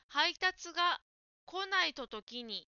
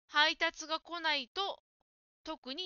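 First: It runs on with no pause before the last word. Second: There is a short pause before the last word. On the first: The speaker calls it wrong. "配達が来ないと時にと言っているように聞こえました" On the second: The speaker calls it right. "特にの前に少し間を空けましょう"

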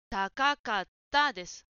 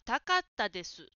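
First: Two ka syllables are pronounced. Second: Only one ka syllable is pronounced. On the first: The speaker calls it right. "かは二つです。" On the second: The speaker calls it wrong. "かが一つ抜けています。"

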